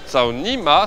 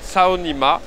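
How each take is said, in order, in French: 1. Il est prononcé un peu différemment, avec la hauteur altérée. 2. Il est prononcé de la façon normale, ordinaire. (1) "si tu prononces un peu différemment" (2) "ça se dit Tsaonima"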